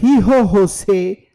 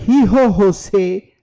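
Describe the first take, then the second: First: The name is read with Spanish pronunciation. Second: The name is read with Spanish pronunciation.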